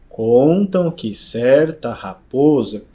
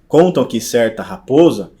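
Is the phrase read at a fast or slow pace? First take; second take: slow; fast. First: It is read slowly with a measured rhythm. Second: It is read at a natural, fluent speed. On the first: "de maneira mais lenta, mais cadenciada" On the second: "ao invés de eu fazer assim"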